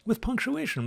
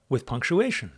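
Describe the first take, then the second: First: "With punctuation" said much higher; emphatic high. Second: Said in the usual way. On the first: Shown as a demonstration. Teacher stressing punctuation to class, high pitched. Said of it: "repeated higher".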